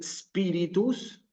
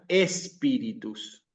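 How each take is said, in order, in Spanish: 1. La palabra empieza directamente con sonido s. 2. La palabra empieza con un sonido e añadido. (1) "en vez de decir spiritus" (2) "existe el error de ponerle una E al principio"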